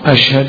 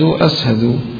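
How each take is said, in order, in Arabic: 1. الحرف الأوسط يُنطق 'sh'. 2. الحرف الأوسط يُنطق 's'.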